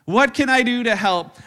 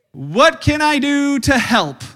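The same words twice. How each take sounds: First: "What can I do to help?" with WHAT leading, quicker; quicker repeat. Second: "What can I do to help?" with I punched, slow; slow emphatic question. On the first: Pastor repeats the question, brisker stress on what. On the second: Pastor asks the congregation, slow and emphatic. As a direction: stress on I, slow and loud. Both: Shown as a demonstration.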